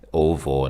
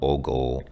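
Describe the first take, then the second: First: The middle consonant is a V sound. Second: The middle consonant is a G sound. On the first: The speaker calls it right. "the G is pronounced like a V, so it's ovo" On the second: The speaker calls it wrong. "not ogo"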